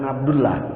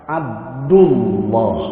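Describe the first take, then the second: First: The 'l' is said thin and light. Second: The 'l' is said thick and heavy. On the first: The speaker calls it wrong. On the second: The speaker calls it right. "harus fakhim. Fakhim itu ditebalkan"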